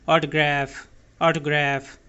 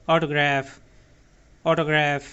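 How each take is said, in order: The two takes are said the same way.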